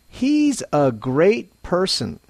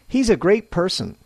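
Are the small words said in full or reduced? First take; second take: full; reduced. First: Slow, with every small word said in full. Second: Normal pace, with the small words reduced. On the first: The speaker calls it wrong. "slowly, clearly, and less naturally" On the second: The speaker calls it right. "at a normal pace"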